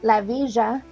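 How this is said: Villa is said with the Argentine pronunciation.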